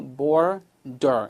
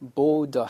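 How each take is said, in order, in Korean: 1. r 소리는 분명히 발음됩니다. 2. r 소리는 빠집니다. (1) "정확하게 미국 발음을 하시려면 border, 그죠? R이 들어가 있죠?" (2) "영국 애들도 border 하니까 걱정하지 마시고 그냥 없이 무시하셔도 돼요"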